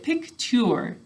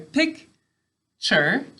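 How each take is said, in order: First: The last syllable is a careful 'chyoor' sound. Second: The last syllable is a relaxed 'cher' sound. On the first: This helps to remember the spelling. "Picture is how we say it to spell it" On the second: This is how the word is normally spoken. "picture is how we say it"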